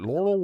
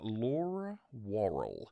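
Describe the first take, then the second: First: The two name parts run together into one word. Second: The two name parts are said separately and clearly. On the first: The speaker calls it wrong. "that's like talking with marbles in your mouth" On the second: The speaker calls it right. "the reason I had to say it like that"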